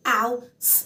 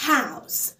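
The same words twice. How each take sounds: First: "house" split into h, ow, s with gaps; sound by sound. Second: Said in the usual way. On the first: Shown as a demonstration. Teacher sounds out house for learners, sound by sound. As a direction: break "house" into three separate sounds. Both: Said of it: "فأنا مقسمة مقاطع".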